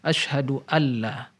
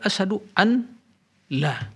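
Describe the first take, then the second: First: The n merges into a doubled l sound. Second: The n is pronounced separately before the l. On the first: "tatkala diidghamkan menjadi asyhadu alla" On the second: "Asal muasalnya asyhadu an la"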